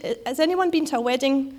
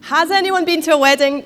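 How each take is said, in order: First: Said in the usual way. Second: Higher, louder call to the room; louder repeat. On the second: Real, not acted. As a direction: call it out again so the back rows answer. Repeats question to get response.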